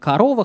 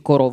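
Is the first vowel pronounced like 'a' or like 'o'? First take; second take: a; o. First: The first vowel sounds like 'a'. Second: The first vowel sounds like 'o'. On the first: This is the modern everyday pronunciation. "говорим" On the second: This is the older historical pronunciation. "исторически"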